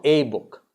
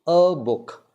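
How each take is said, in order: First: "a book" with "a" said AY; contrasting full A. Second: "A book" with A said uh; unemphasized A. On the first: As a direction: give A its letter-name sound. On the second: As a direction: schwa on A, then book. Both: Shown as a demonstration. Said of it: "Not a book".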